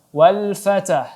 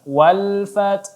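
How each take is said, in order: First: The t bounces with an extra vowel before h. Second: The t releases breath, then h follows without bouncing. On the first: The speaker calls it wrong. "huruf ta di sini tidak boleh dipantulkan" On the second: The speaker calls it right. "angin ta cukup dikeluarkan dulu baru di ya baru dikeluarkan huruf ha-nya"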